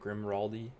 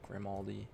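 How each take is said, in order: First: The name has an extra R sound in it. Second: The name has no extra R sound in it. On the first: The speaker calls it wrong. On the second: The speaker calls it right.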